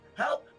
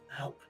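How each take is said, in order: First: The word is called out loudly. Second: The word is said in a lowered voice. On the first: The character speaks in the common language. "very loudly, uh, in common at first" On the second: The character speaks in the fiendish language. "then drop my tone of voice while in fiendish"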